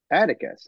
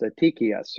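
First: "Atticus" with stress on the first syllable, AT-i-cus; everyday pronunciation. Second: "Attikius" as a-TEE-kee-us, stress on the second syllable; technical pronunciation. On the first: Author answering narrator's question, "Atticus" said AT-i-cus. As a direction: say "Atticus" the English way, AT-ih-kus. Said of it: "how do you pronounce it". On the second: Narrator correcting the author, "Attikius" said a-TEE-kee-us. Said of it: "technically it's pronounced Attikius". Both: Retold or imitated.

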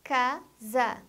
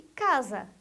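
First: "casa" split into ca, sa; syllable by syllable. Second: Said in the usual way. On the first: Shown as a demonstration. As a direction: say "casa" in two separate beats. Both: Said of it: "A palavra que tem duas sílabas".

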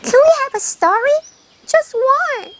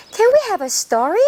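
First: High, slow pleading hare voice; a small hare begs for one story; hare asking. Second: Said in the usual way. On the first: Acted. 토끼가 거북이에게 조르는 높은 목소리. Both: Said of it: "토끼가 거북이에게 부탁을 하네요".

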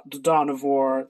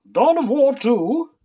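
First: Said in the usual way. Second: Slow, higher, louder trailer-voice read; hammed-up epic announcer; epic title announcer. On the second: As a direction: boom the title like a game trailer. Dramatic reading of a book title.

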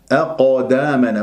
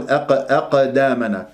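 First: أقدامنا with a dark bouncing ق; heavy qalqala. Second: أقدامنا with a light, thin ق echo; thin the ق towards a plain a; thin qalqala, wrong. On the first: Teacher modelling correct qaf, heavy echo. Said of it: "من تقلقل لازم تفخم". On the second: Teacher showing the common mistake, light qaf. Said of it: "بقاف مقلقلة مرققة". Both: Shown as a demonstration.

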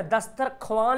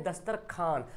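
First: दस्तरख्वान ending "khwaan", w sounded; spelling pronunciation. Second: दस्तरखान ending "khaan", softer, no w; usual spoken form. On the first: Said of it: "लिखा हुआ है". (दस्तरख्वान में वाव बोलकर) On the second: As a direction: drop the w, saying दस्तरखान. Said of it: "लेकिन पढ़ते हैं". (दस्तरखान में वाव silent) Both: Shown as a demonstration.

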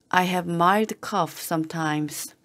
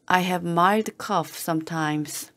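No difference in how they are said.

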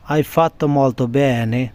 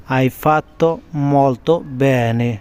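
First: Said in the usual way. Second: "Hai fatto" then a pause, then "molto bene" drawn out slowly; slow split teaching. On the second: Shown as a demonstration. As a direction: break it in two and say it slowly for learners.

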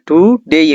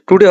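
First: টুডেই ending in an ei glide; correct pronunciation. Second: টুডে ending in a plain short e, no glide; wrong pronunciation. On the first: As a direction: finish টুডেই on a clear "day" diphthong. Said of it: "তাই সঠিক উচ্চারণ হবে ডেই". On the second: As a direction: say টুডে with the final vowel left as a bare e. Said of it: "এটা টুডে হবে না". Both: Shown as a demonstration.

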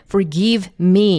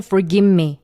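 First: "forgive me" with a clear v before "me"; v fully sounded. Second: "forgive me" with the v melted into m; reduced "forgimme". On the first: Teacher showing the laborious version, v kept in "forgive me". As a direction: sound the v in "forgive", then move to "me". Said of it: "이렇게 v 발음 냈다가 me 연결하시면은". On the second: Teacher modelling the reduction, "forgive me" as "forgimme". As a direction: drop the v and say "for-gim-me". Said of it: "이렇게 줄어들어요". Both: Shown as a demonstration.

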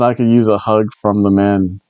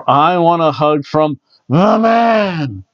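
First: Said in the usual way. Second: Drawn-out, slightly raised sign reading; reading fan sign. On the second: Retold or imitated. Reading a fan's sign aloud, playful slow announcement. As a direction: read it slowly, stretching out "the man". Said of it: "whenever I see a sign out there".

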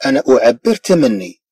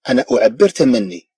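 The two takes are said the same way.

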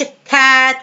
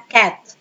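First: كات with the vowel drawn out long; wrong long vowel. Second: كات with a short, quick a; short vowel. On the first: Teacher shows pupils the wrong way, كات with a long vowel. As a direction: hold the a in كات too long. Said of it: "ما قلتش كات كده". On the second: Teacher corrects it for pupils, كات with a short vowel. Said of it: "لا". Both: Shown as a demonstration.

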